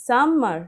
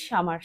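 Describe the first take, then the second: First: সামার in two distinct parts, সাম and মার; deliberate two-syllable সামার; split into syllables. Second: Said in the usual way. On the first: Shown as a demonstration. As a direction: break সামার after সাম. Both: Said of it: "two syllabic word".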